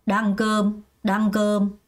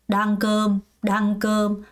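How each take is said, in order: The two takes are said the same way.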